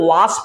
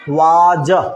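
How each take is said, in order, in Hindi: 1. इस शब्द का अंत फुफकारती हुई s की आवाज़ से होता है। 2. इस शब्द का अंत भिनभिनाती हुई z की आवाज़ से होता है। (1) "स भी होता है और ज भी होता है" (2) "लेकिन अक्सर इसको क्या पढ़ते हैं? वाज"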